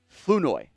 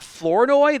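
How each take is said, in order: First: The R sound in the name is silent. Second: The R sound in the name is pronounced. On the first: The speaker calls it right. "like the R doesn't exist" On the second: The speaker calls it wrong. "it's not Flournoy"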